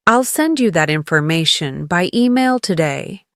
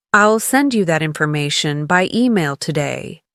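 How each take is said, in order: Both takes have the same delivery.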